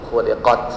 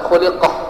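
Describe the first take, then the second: First: The word ends with a clear t sound. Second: The word ends with a soft h sound. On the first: The speaker calls it right. "tapi khul khuliqat" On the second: The speaker calls it wrong. "Kita tidak boleh baca khuliqah"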